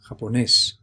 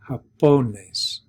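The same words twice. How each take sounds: First: The stress is on the last syllable. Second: The stress is on the second-to-last syllable. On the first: The speaker calls it right. "We're underlining here the last syllable" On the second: The speaker calls it wrong. "we should hear the emphasis here on po"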